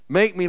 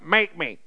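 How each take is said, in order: First: It is said in a soft, humble tone. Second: It is said in a challenging, defiant tone. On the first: A request to be shaped into what another wants. The speaker calls it right. "Make me like, I submit myself to you" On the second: A dare for someone to try forcing the speaker. The speaker calls it wrong. "Not that kind of make me"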